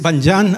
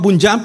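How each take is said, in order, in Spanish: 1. La primera vocal suena como una a. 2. La primera vocal suena como una u española. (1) "pero creo que es Banyan" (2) "yo siempre lo he pronunciado como tal cual como se lee"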